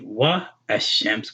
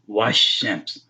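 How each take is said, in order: First: The two words are said separately, with a break. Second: The two words are run together into one. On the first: The speaker calls it wrong. "we wouldn't say wa ashams" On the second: The speaker calls it right. "We say washams"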